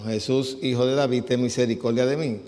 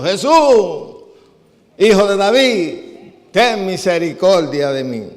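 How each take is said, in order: First: Said in the usual way. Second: Loud, high shout for mercy; crying out. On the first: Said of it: "comenzó a dar voces diciendo". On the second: Acted. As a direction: call out to Jesus at full voice, pleading over a crowd. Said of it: "comenzaron a dar voces diciendo".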